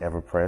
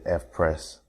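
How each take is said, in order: First: The name begins with the syllables 'ever'. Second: The name begins with the letter sound 'eff'. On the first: The speaker calls it wrong. "I've been calling it EverPress, so please excuse me for not saying it correctly" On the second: The speaker calls it right. "but it's the F-Press"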